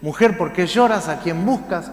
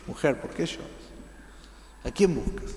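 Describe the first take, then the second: First: Louder. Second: Whispered. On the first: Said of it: "Jesús le dice". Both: Shown as a demonstration.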